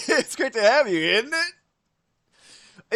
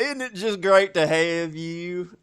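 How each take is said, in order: First: High-pitched, "isn't it" stretched into a rising question; questioning welcome. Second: Slow and drawn out, stretching "great" and "have you"; exaggerated welcome. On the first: Acted. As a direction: lilt it up high, swinging "isn't it" upward. Replays own questioning welcome. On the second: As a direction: drag every word out in a hammed-up welcome.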